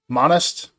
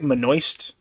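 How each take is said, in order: First: It sounds like 'monist', without the 'oist' ending. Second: It sounds like 'moist' with an N inside. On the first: The speaker calls it right. "I'm gonna call it Monist" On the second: The speaker calls it wrong. "it's like I'm saying moist with an N in the middle"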